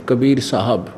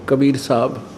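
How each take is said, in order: No difference in how they are said.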